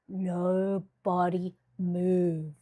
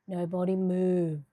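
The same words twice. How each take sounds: First: Slow drawn-out command. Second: Said in the usual way. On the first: Acted. Telling viewers not to move while camera settles, slow drawn command. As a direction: stretch it out, slow and steady. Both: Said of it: "I'm talking slow".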